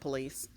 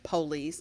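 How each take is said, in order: First: The stress is on the second syllable. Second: The stress is on the first syllable.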